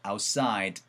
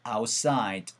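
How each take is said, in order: Both takes have the same delivery.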